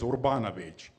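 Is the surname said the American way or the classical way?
American. The surname is said in an Americanized pronunciation. This is how people in America usually say it. "usually in America it is Urbanovich"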